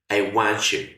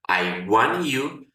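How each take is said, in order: First: The three words run together into one sound. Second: Each word is said separately and clearly. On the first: "hacer una unión de sonidos y las tres palabras suenan" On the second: "puedes pronunciarla I want you"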